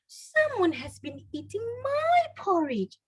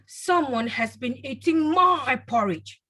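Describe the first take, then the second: First: The voice is sweet and soft. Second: The voice is deep and loud. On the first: A mother is speaking. "in a sweet, soft voice" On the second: A father is speaking. "in a deep, loud voice"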